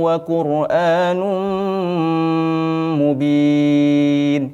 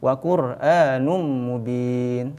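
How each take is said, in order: First: The nasal sound is pressed and held long. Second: The nasal sound passes straight on without holding. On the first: The speaker calls it right. "Jadi ditekan ditekan dan ditahan" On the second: The speaker calls it wrong. "tidak boleh langsung"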